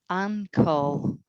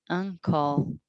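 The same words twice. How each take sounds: Both takes have the same delivery.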